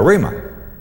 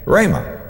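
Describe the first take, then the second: First: "rhema" with a long E, like reed; first syllable as REE. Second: "Rhema" with a long A, like ray; first syllable as RAY. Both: Shown as a demonstration. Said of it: "However you choose to pronounce it".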